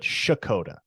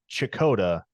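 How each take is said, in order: First: The name begins with an 'sh' sound. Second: The name begins with a 'ch' sound. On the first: This is how locals say the town's name. The speaker calls it right. "but Shakota" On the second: This is how outsiders say the town's name. The speaker calls it wrong. "it is not Chakota"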